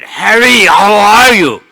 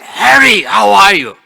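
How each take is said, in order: First: It is said as loudly as possible. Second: It is said in a raised, louder voice.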